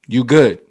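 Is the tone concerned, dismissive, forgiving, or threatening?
dismissive. It sounds dismissive and annoyed. The speaker wants to be left alone. "Leave me alone. Stop talking to me"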